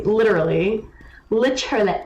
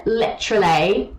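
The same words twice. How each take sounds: First: Imitating Owl. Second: Mocking Literally again; Literally dragged like Owl; imitating Owl. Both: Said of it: "That's how Owl talks".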